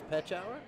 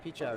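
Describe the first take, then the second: First: The first vowel is a short 'eh' sound. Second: The first vowel is a long 'ee' sound. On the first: The speaker calls it right. "it's petch hour?" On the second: The speaker calls it wrong. "I've been pronouncing this wrong. It's not peach hour"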